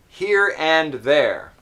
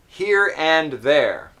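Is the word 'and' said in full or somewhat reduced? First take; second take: full; full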